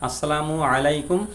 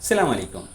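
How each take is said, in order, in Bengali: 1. বাক্যটা পূর্ণ 'as' দিয়ে শুরু হয়। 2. বাক্যটা সরাসরি 'salam' দিয়ে শুরু হয়। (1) "সালামের বাক্যটা হলো" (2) "কিন্তু আমরা সাধারণত বলি"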